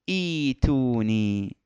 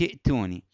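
First: It opens with a glottal stop and long ee. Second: It runs straight on from the previous word. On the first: The reading starts from this word. "فإذا بدأنا منها نقول إيتوني" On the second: The reading continues from the previous word. "إذا أوصلنا لا إشكال في ذلك"

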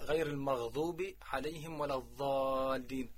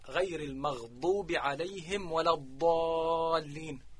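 First: The emphatic consonant sounds like a za. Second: The emphatic consonant sounds like a true dad. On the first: The speaker calls it wrong. "فلفظ الضاد بأخت الطاء" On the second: The speaker calls it right. "فيجب عليه أن يقول"

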